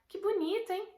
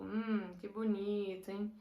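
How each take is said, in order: First: High, bright-eyed genuine praise on "Que bonito"; sincere delight. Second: Ironic. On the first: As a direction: sound truly thrilled by it, voice leaping up. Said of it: "um tom assim que você usaria pra expressar algo realmente legal". (elogio sincero e animado, bem agudo) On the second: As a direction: praise that clearly means the opposite, held down and cool. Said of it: "Você faria tipo". (tom irônico, baixo e seco) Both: Shown as a demonstration.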